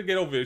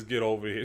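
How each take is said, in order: First: Higher, louder mock catchphrase; mocking bass-less delivery. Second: Mom with more bass. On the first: YouTuber shows what mom doesn't sound like, mocking. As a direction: mimic a voice with no bass. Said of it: "She doesn't say". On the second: Retold or imitated. YouTuber imitates his mom's version, mildly firm. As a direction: give a hint of a firm mother. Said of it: "says it with more bass".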